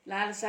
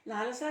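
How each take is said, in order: First: A mild narrated shout of her name. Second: A lightly voiced stunned gasp of her name; understated shock, the name barely lifting. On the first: Nandi, alarmed at her answer, shouts at Lalasa. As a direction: call her name out sharply, but only a touch louder. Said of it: "Nandi అరిచాడు". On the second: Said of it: "Nandi నిర్ఘాంతపోతూ అన్నాడు". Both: A narrator's reading.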